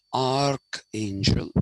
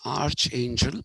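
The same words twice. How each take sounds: First: "archangel" said as ark-angel, with a hard k; k sound in archangel. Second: "archangel" said with ch as in church; spelling pronunciation. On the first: Teacher naming God's favorite, "archangel" pronounced with hard k. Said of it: "it's pronounced arch". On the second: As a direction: sound out "archangel" as arch-angel. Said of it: "It's written archangel". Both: Shown as a demonstration.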